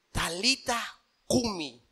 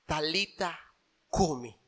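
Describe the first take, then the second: First: "Talita cumi" drawn out slowly and quietly; "Talita cumi" dicho lento y suave; slow, soft. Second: Soft Aramaic. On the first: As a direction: lay each word down gently. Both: Acted. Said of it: "palabras en arameo".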